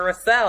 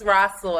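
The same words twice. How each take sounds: First: "Russell" stressed on the second syllable; corrected name pronunciation. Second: "Russell" stressed on the first syllable; mispronounced name. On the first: Retold or imitated. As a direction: say "Russell" as ruh-SELL, full final vowel. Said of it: "and then I heard him". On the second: Shown as a demonstration. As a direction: say "Russell" as RUSS-ul, weak second syllable. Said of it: "I didn't know how to pronounce it".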